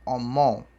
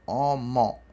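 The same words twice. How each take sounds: The two takes are said the same way.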